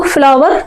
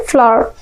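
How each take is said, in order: First: Said in the usual way. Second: फ्लावर squeezed to "flaa", no v or final r; silent-r FLOWER. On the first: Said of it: "फ्लावर नहीं पढ़ना है". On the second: Shown as a demonstration. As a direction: say फ्लावर as one open "flaa-ah". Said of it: "क्या पढ़ना?". (फ्लावर को "फ्लाअ" जैसा बोलें)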